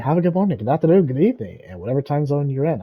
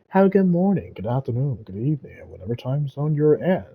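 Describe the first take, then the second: First: It is said at a faster pace. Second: It is said at a slower pace.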